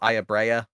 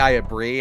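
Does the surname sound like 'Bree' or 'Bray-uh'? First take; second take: Bray-uh; Bree. First: The surname has two syllables, like 'Bray-uh'. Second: The surname is one syllable, like 'Bree'. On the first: How others have been heard saying it. "I've heard it pronounced Ayabrea" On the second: The speaker's own way of saying it. "I say Ayabri. ... I'm gonna keep saying Brie"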